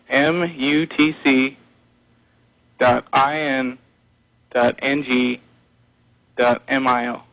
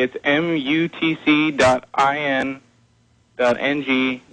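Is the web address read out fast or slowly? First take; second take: slowly; fast. First: The address is read out more slowly. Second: The address is read out at normal speed.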